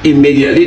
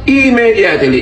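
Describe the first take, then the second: First: The word is pronounced in the standard way. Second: The word is pronounced in a distorted way. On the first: The speaker calls it right. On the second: The speaker calls it wrong.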